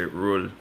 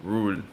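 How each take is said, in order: The two takes are said the same way.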